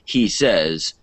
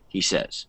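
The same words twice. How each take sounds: First: It is said in a raised, prominent voice. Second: It is said in a lowered, quieter voice. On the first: It sounds like the start of a new statement. The speaker calls it wrong. "don't make it a new thing" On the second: It sounds like a tag ending the previous sentence. The speaker calls it right. "lower your voice a little bit"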